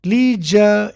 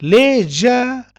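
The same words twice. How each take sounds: First: LEISURE as "LEE-zha"; long ee in LEISURE; American pronunciation. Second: LEISURE as a slow "LEH-zha"; British pronunciation. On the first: Teacher contrasting American leisure with British, "lee-zha". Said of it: "in American". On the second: Teacher contrasting British leisure with American, "leh-zha". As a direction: open e in LEISURE, slowly. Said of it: "in British". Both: Shown as a demonstration.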